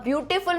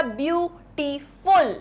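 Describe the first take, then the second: First: Said in the usual way. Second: beautiful split into view, टी, फुल; syllable by syllable. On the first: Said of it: "एक से ज्यादा syllable है". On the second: Shown as a demonstration. Teacher showing the word's syllables, syllable by syllable. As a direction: break beautiful into three separate beats. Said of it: "words को तोड़ना आ रहा है".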